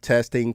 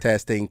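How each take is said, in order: First: The high frequencies are boosted a little. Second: The high frequencies are boosted the most. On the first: "we've cranked to the first position on the high frequency part" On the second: "we are now in the top position"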